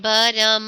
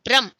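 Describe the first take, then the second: First: A vowel separates the first two consonants. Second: The first two consonants form one cluster. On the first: The word has no meaning. The speaker calls it wrong. "So this is wrong way pronunciation" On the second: The word has a meaning. The speaker calls it right. "So ब्रह्म"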